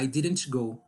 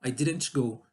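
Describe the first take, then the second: First: The T in didn't is pronounced with a jolt. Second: The same.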